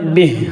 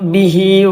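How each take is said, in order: First: The word ends on a bare consonant. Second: The word ends on a vowel. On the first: The reader stops at this word. "ആതിന് സുക്കൂൻ കൊടുക്കണം" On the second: The reader continues without stopping. "അവിടെ നിർത്താതെ ഓതുകയാണെങ്കിൽ"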